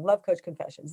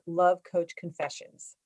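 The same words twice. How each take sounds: First: Natural even stress across "Love Coach Confessions"; corrected read of "Love Coach Confessions", normal pace; "Love Coach Confessions" said the right way; proper intonation. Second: Slow, stress on Love, falling; "Love" leaned on, then the title drawled slowly; botched emphasis on "Love" in Love Coach Confessions; said wrong. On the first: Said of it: "Proper intonation". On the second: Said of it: "I said that wrong". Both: Shown as a demonstration.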